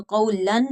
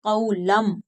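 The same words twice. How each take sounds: First: कौलन ending on a clear n; wrong n ending. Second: कौलम closing on a held m; n changed to m. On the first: Teacher shows what not to read, n at the end of कौलन. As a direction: finish कौलन with n, unchanged. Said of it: "नहीं पढ़ेंगे". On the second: Teacher models the correct reading, m at the end of कौलम. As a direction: end कौलम with lips closed on m. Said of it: "मीम के साथ बदल कर". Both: Shown as a demonstration.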